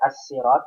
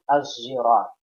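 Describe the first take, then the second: First: The word's main consonant is an s sound. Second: The word's main consonant is a z sound. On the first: "pakai sin" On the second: "pakai zai"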